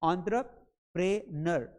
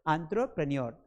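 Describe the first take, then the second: First: The ending is said as 'prenur' without a y-glide. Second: The ending is said as 'prenyor' with a y-glide. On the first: The speaker calls it wrong. "प्रेनर नहीं होगा" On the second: The speaker calls it right. "प्रेन्योर होगा"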